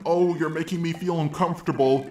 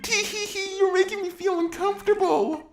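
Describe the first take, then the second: First: It is said in a serious, uneasy tone. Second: It is said in a giggly, flirty tone.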